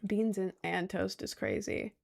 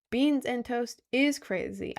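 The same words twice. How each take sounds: First: Said in the usual way. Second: "Beans and toast is crazy" punched out word by word; over-enunciated. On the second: Real, not acted. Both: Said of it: "I enunciated that wrong".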